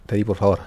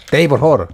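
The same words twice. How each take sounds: First: Said in the usual way. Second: Louder, more insistent pleading; louder plea. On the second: Real, not acted. Gamer begging Teddy in the game, louder plea. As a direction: raise the voice to beg.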